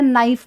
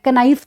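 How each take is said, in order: First: नाइफ said with no K sound; teacher says नाइफ, starting straight on the N; right way, silent K. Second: कनाइफ with the K sounded at the start; teacher says कनाइफ, sounding the silent K; wrong way with K. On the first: Teacher gives students the right way: नाइफ, silent K. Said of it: "हम क्या बोलते हैं?". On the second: Teacher shows students the wrong way: कनाइफ with K sounded. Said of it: "कनाइफ तो नहीं बोलते ना". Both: Shown as a demonstration.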